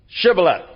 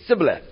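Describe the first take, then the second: First: The word begins with a sh sound. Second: The word begins with an s sound. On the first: "say, Shibboleth" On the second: "couldn't pronounce the S H sound. And they'd say"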